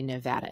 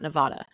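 First: It is said the way locals pronounce it. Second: It is said the way outsiders pronounce it. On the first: The speaker sounds like a Nevadan. The speaker calls it right. "if you want to sound like a Nevadan, you say Nevada" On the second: The speaker sounds like an outsider. The speaker calls it wrong. "It's not Nevada"

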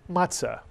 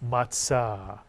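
First: It is said in the common everyday pronunciation. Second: It is said in Sephardic Hebrew pronunciation. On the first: "You'll hear people call it matzah"

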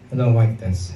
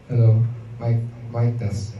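First: The voice sounds dry, with no echo effect. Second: The voice sounds with an added echo effect.

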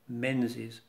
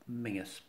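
First: The name is said as spelt, with a 'z'. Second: The name is said like 'Mingis', without 'z'. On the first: This is how it is said outside Scotland. "is often pronounced that way" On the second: This is how it is said in Scotland. "But in Scotland, Menzies is Mingus"

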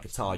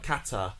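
First: The stress falls on the second syllable. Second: The stress falls on the first syllable. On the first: "You're influenced by the pronunciation of Kuwait, because that's got stress on the second syllable" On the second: "with stress on the first"

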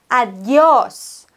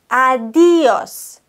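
First: The stress falls on the last syllable, 'os'. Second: The stress falls on the second syllable, 'di'. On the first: The speaker calls it right. "Und deshalb müssen wir das O betonen" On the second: The speaker calls it wrong. "Mit Betonung auf dem I"

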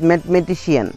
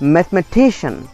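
First: The stress falls on a different syllable. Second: The stress falls on the syllable before -cian. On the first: The speaker calls it wrong. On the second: The speaker calls it right.

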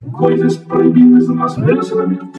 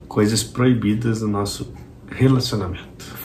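First: It is said loudly. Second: It is said quietly.

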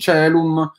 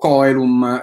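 First: It uses the church Latin pronunciation. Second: It uses the classical Latin pronunciation. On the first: "e non Celum" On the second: "leggevo Coelum"

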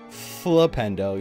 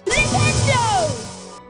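First: The opening 'Fl' is said plainly. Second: The opening 'L' is strongly emphasized.

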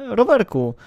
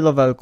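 First: The word is said with R sounds. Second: The word is said with L sounds instead of R. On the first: The speaker calls it right. "mówi się rowerku" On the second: The speaker calls it wrong. "ale źle mówisz, nie mówi się Lowelku"

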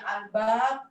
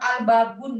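First: The word ends without the final -un ending. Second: The word ends with a pronounced -un ending. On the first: The speaker calls it right. "bacanya al-bab gitu. terakhirnya nggak dibaca" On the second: The speaker calls it wrong. "kalau orang sini ngajarnya bukan al-babun"

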